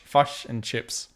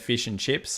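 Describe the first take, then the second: First: The vowel in fish sounds like uh. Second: The vowel in fish sounds like ee. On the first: "They say like fush" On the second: "I'm one hundred percent Aussie accent"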